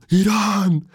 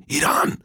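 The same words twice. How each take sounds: First: High, drawn-out mock yell; pitched-up holler without real volume; imitated full-out shout. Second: Mild mock yell, pitched up; restrained retold holler; imitated shout. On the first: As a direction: mimic a street shouter, stretching the word high. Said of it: "Φουλ δυνατά". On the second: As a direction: imitate a street shouter without real volume. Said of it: "με κοιτάει έτσι και φωνάζει".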